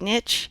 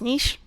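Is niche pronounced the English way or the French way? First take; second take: English; French. First: It is pronounced the English way, not French. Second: It is pronounced the French way.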